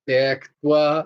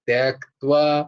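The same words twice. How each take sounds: The two takes are said the same way.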